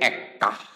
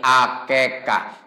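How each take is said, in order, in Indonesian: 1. Kata ini disingkat menjadi dua suku kata. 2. Kata ini memiliki tiga suku kata dengan vokal e. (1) "Hese keneh jadi ekah" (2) "Sunda susah jadi akekah"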